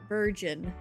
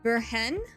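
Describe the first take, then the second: First: The middle consonant sounds like a J. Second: The middle consonant sounds like an H.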